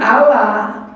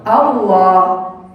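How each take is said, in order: First: The L is said light and thin. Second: The L is said heavy and dark. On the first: Someone not taught to recite says it. The speaker calls it wrong. "Tidak mungkin" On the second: The speaker calls it right. "tetap bacanya apa?"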